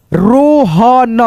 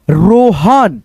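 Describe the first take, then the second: First: Rohan very slowly split as रो, ह, न; drawn-out teaching version of Rohan; syllable-by-syllable reading. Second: Said in the usual way. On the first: Shown as a demonstration. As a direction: stretch out every sound of Rohan. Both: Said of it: "Hindi पढ़ना लिखना".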